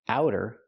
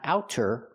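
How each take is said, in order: First: The middle consonant is a quick, soft D. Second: The middle consonant is a clear, crisp T. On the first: The speaker calls it right. "It's a fast D. ... but outer in American pronunciation" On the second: The speaker calls it wrong. "Not outer"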